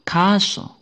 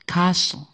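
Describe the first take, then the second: First: The t sound is silent. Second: The t sound is silent.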